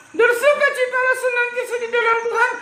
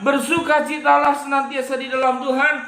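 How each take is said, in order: First: High, laughing puppet repeating. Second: Said in the usual way. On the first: Acted. Puppet repeats the verse after the teacher, high. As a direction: chirp the verse back as the puppet.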